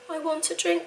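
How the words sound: It sounds calm, sweet and pleasant. The request is made politely. The speaker calls it right. "in a nice, calm, happy tone"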